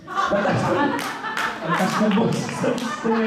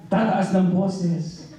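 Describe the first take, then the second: First: Higher, half-laughing repeat; laughing aside. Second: Said in the usual way. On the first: Shown as a demonstration. Preacher teasing the congregation about yelling at husbands, laughing. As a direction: chuckle as you repeat the jab.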